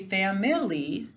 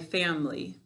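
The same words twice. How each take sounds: First: The middle vowel is said clearly and fully. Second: The middle vowel is reduced or dropped. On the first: This is the form used to spell the word. "we say family to spell it" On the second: This is the form used in everyday speech. "When I'm speaking, though, I would say my family"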